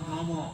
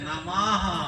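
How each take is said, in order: First: The word ends without a final h sound. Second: The word ends with a breathy h sound. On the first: The speaker calls it wrong. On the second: The speaker calls it right.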